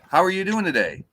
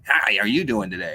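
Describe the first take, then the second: First: The question sounds warm and friendly. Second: The question sounds cold and negative. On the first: The message is meant kindly. "If I'm saying it, ... That's the my tone, my body language" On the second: The reader takes the message as hostile. "you're going to perceive that as being a negative message"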